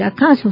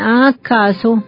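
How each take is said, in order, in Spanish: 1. La palabra se dice unida como una sola unidad. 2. La palabra se divide en dos partes separadas. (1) "No, debemos decir acaso" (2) "Hay muchos seres que no sabían, entonces decían acaso"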